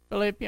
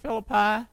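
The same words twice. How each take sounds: First: First common pronunciation of "Philippi"; alternative pronunciation. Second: Second common pronunciation of "Philippi"; alternative pronunciation. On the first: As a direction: say "Philippi" stressed on the middle syllable, fih-LIP-ee. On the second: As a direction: say "Philippi" ending like "pie", FIL-uh-pie. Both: Shown as a demonstration. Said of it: "Philippi or Philippi".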